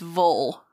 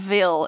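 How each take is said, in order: First: The syllable has a reduced 'u' vowel, like 'vul'. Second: The syllable has a clear 'i' vowel, like 'vill'. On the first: The speaker calls it right. "It's Vol. Like V-U-L" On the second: The speaker calls it wrong. "It's not Ville"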